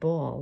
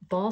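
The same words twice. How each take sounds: First: The word has a New York accent vowel. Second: The word has a General American vowel. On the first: The speaker calls it wrong. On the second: The speaker calls it right.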